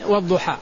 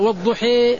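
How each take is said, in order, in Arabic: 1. الصوت الأخير صوت 'a' مفتوح. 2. الصوت الأخير يميل نحو 'e'.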